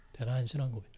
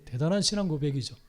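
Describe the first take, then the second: First: 대단한 신앙 고백 repeated much softer and lower; soft echo. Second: 대단한 leaned on, then falling; stress on 대단한. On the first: Preacher echoing his own praise to the congregation, hushed. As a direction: let the repeat sink to a hush. Echoed softly after first take. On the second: Preacher admiring Peter's confession, stressing 대단한. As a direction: lean into 대단한 and let the phrase fall. Preacher repeats phrase, first take. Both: Acted.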